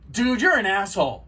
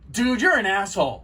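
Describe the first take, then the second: First: It is said in an angry tone. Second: The same.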